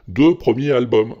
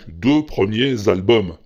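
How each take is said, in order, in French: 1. Premiers est séparé d'albums, sans liaison. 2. Premiers est lié à albums par une liaison en z. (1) "tu fais pas la liaison du tout" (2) "À partir de 2, c'est du pluriel"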